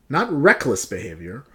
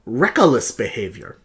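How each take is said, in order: First: "reckless" said as two crisp syllables, RECK-less; "reckless" kept tight as RECK-less before "behavior". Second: "reckless" stretched into three syllables, RECK-uh-less; extra syllable. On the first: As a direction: say "reckless" with only two syllables, no extra vowel. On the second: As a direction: slip an extra "uh" into the middle of "reckless". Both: Shown as a demonstration. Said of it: "You don't need another syllable there".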